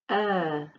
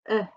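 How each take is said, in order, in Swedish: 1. Vokalen hålls lång. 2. Vokalen klipps kort. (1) "Lång vokal" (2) "Kort vokal"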